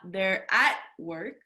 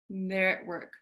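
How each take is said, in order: First: The word 'at' has a full vowel. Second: The word 'at' is reduced to a schwa. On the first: "Not they're at work" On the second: "it kind of blends in together"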